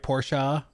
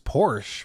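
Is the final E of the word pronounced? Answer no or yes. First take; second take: yes; no. First: It ends with a vowel after the sh sound. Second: It ends on the sh sound, no final vowel. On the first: The speaker calls it right. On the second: The speaker calls it wrong.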